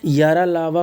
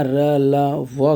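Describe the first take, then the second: First: Said in the usual way. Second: या, र, ला, व very slow, each letter apart; slow sounding out. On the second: Shown as a demonstration. Teacher repeating the question's letters for students, slowly sounded out. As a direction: stretch each of या, र, ला, व separately.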